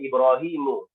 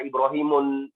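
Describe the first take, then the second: First: The word ends on a vowel without n. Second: The word ends with an added n sound. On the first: The speaker calls it right. "Contohnya Ibrahimu" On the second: The speaker calls it wrong. "Tidak boleh dibaca"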